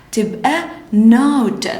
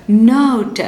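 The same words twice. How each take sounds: First: Drawn-out, sound by sound; slow phonics blend. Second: Said in the usual way. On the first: Shown as a demonstration. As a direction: blend it slowly for the class. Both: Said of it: "ن، O، ت".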